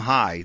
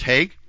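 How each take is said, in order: First: The name is said without a final g sound. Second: The name is said with a final g sound. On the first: The speaker calls it wrong. "I wonder if you'd pronounce that Tim High" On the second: The speaker calls it right. "but I guess it's pronounced Haig"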